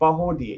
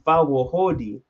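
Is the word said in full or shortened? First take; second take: shortened; full. First: It is said fast with syllables run together. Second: Every syllable is said out in full. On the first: The speaker calls it right. "It's literally said so fast" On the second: The speaker calls it wrong. "that's what I thought it was pronounced as"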